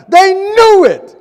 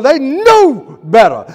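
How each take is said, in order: First: High, loud, slow cry; rising shout. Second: Slow, loud emphasis on knew; emphatic preaching. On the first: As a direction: climb to a peak on knew. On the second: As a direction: lean hard on knew. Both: Real, not acted.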